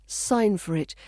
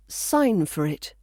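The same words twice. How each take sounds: The two takes are said the same way.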